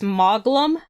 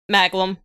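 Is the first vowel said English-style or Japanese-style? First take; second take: Japanese-style; English-style. First: The first vowel is a Japanese-style open ah. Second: The first vowel is an English-style a. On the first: This is how the game itself says it. "they're pronouncing their A's like they do in Japan" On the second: This is how people here would say it. "over here, people would say Maglum"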